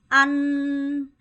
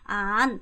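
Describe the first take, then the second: First: The pitch stays level throughout. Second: The pitch moves instead of staying level. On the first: The speaker calls it right. "평성" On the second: The speaker calls it wrong. "이렇게 하면 안 돼요"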